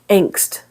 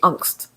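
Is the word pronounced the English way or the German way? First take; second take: English; German. First: It is said with an English pronunciation. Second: It is said with a German pronunciation.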